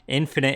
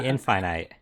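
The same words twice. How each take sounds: First: The second i has a short vowel sound. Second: The second i has a long vowel sound. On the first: The speaker calls it wrong. "infinite is wrong" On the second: The speaker calls it right. "the E makes the I long... it should be infinite"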